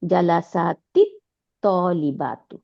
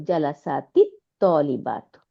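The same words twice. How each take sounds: First: জালাসাতিত তলিবাতু read as one joined phrase; জালাসাতিত তলিবাতু, read once at lesson pace; Arabic reading. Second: জালাসাতিত তলিবাতু spelled out slowly, sound by sound; জালাসাতিত তলিবাতু, very slow and deliberate for students; slow Arabic reading. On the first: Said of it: "এটাই দেখালো". (জালাসাতিত তলিবাতু আরবি উচ্চারণে একবার পড়া) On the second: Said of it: "এটার সাথে মিলাই পড়লো". (জালাসাতিত তলিবাতু খুব ধীরে ধীরে উচ্চারণ) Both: Shown as a demonstration.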